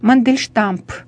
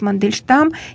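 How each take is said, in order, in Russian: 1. Имя заканчивается добавленным звуком «п». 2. Имя заканчивается звуком «м».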